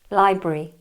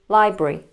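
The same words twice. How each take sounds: No difference in how they are said.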